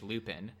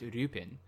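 First: The name begins with an English-style l sound. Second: The name begins with a Japanese-style flapped r. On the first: "closer to the English Lupin" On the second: "name is pronounced Rupin"

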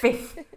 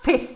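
First: The f sound is heard twice in the word. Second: The f sound is heard only once in the word. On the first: The speaker calls it right. "There's a foot in it. Twice" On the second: The speaker calls it wrong. "It's not 5th"

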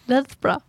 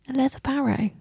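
First: The name is squeezed into two short syllables. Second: The name is said with all its syllables. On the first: "it's probably pronounced like Lethbrough" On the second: "But, don't know, Leatherbarrow"

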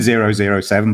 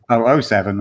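First: The zeros are read as 'zero zero'. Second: The zeros are read as 'double oh'. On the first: This is how the written number is read. "it's written 007" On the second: This is the British way of saying the number. "but you say it 007"

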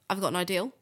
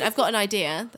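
First: The last word ends with an added L sound. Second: The last word ends in a plain vowel. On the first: "people from Bristol definitely do" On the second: "Rather than saying I've got an idea"

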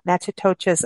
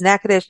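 First: The name is said with an outsider's pronunciation. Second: The name is said with its local pronunciation. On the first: This is how the speaker used to say it. The speaker calls it wrong. "not Natchitoches, as I said for many years" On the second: This is how the name is properly said. The speaker calls it right. "pronounced as Natchitoches"

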